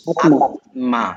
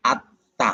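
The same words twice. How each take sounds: First: আত্মা said as atma, with a clear t then m; letter-by-letter reading. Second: আত্মা said as atta, with a doubled t and no m; correct spoken form. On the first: Teacher showing the spelled-out reading, আত্মা as atma. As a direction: stress the m sound in আত্মা. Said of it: "উচ্চারণ হওয়ার কথা ছিল কি?". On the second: Teacher giving the right form, আত্মা as atta. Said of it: "আত্মা না বইলে আমরা বলি". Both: Shown as a demonstration.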